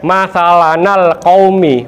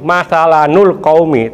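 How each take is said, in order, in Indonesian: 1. Huruf n diikuti vokal a. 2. Huruf n diikuti vokal u. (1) "bukan di fathah" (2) "bukan di domah"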